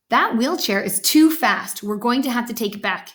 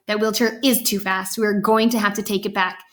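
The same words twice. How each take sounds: First: Measured verdict with "too" as the peak; stress on too. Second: "is" punched to agree with what was said; agreeing repeat, "is" standing out; stress on is. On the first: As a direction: declare it firmly, weight on "too". Father's line, echoed by mother. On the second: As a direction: echo it with the weight on "is". Mother echoes with agreeing emphasis. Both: A narrator's reading.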